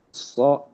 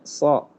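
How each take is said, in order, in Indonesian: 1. Bibir dibulatkan pada bunyi ini. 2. Bibir tetap tidak dibulatkan, seperti pada sa. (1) "ketika menjadi bibir salah" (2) "Harusnya so, seperti ngucapin sa"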